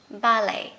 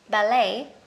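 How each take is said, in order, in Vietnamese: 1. Từ này được phát âm theo giọng Anh. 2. Từ này được phát âm theo giọng Mỹ. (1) "Múa ba lê Anh sẽ là ballet" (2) "Người Mỹ ballet"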